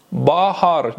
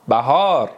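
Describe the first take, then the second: First: "بهار" with open back a in first syllable; Turkish pronunciation. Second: "بهار" with short front a, then long aa; Persian pronunciation. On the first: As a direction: say "بهار" as bahar, Turkish style. («بهار» با تلفظ ترکی، باهار) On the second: («بهار» با تلفظ فارسی، بَهار) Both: Shown as a demonstration.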